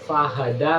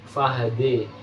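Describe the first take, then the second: First: The final vowel is an open a sound. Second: The final vowel is tilted toward an e sound. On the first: "bunyi awal" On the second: "Dibaca imalah"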